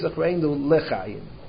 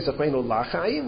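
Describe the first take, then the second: First: The second word begins with the syllable 'le'. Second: The second word begins with the syllable 'la'. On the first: The speaker calls it right. "we say zachreinu lechayim" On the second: The speaker calls it wrong. "that's why we don't say zachreinu lachayim"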